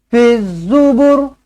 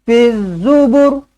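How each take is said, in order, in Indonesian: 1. Vokal akhirnya dibaca pendek. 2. Vokal akhirnya dibaca pendek.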